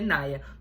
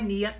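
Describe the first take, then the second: First: The name is said as 'Naya'. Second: The name is said as 'Nia'. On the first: The speaker calls it right. "é Naya" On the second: The speaker calls it wrong. "E não é Nia"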